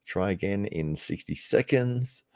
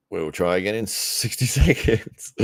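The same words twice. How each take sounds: First: Said in the usual way. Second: Slow repeat with a laugh inside; chuckling through sixty seconds; amused repeat. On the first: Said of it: "double checking on my Core Sports link". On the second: Shown as a demonstration. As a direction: laugh at the stalled stream.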